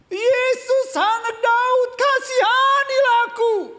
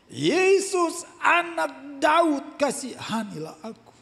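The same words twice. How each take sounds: First: It is shouted very loudly. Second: It is called out at normal loudness.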